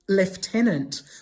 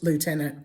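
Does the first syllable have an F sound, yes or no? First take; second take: yes; no. First: The first syllable has an F sound. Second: The first syllable has no F sound. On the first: "where do you get the F?" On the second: "it's not pronounced lieutenant"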